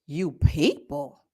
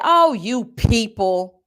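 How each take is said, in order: First: Low, slow, stunned question rising at the end; incredulous echo. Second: Slow, drawn-out imitation of a dismissive voice; mocking the clerk. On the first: Real, not acted. Repeating the clerk's insult to listeners in stunned disbelief. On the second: Quoting the clerk's insult in a slow mocking voice. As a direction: stretch it out like a condescending clerk. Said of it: "She said".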